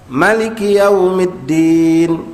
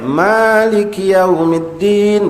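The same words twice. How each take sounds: First: The first vowel of Maliki is kept short. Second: The first vowel of Maliki is held long. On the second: "dibaca dua alif"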